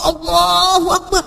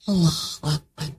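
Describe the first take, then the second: First: It is said loudly. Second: It is said quietly, just audible.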